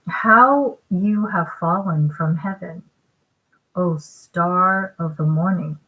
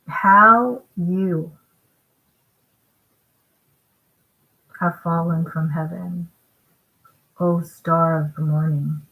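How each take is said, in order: First: It is read at a normal, faster pace. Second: It is read at a slower pace.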